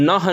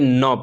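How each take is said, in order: First: The word ends with an audible h sound. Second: The word ends on a plain short vowel. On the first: The speaker calls it wrong. "इसको हम नह नहीं" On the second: The speaker calls it right. "बल्कि न पढ़ते हैं"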